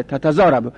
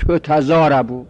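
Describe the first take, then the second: First: Said in the usual way. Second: تتضاربو said as "tutazarabu"; passive vowelling. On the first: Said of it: "خود اولش فتحه داره". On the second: Shown as a demonstration. Teacher giving the first letter u, in passive form.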